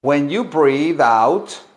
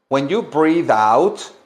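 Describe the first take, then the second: No difference in how they are said.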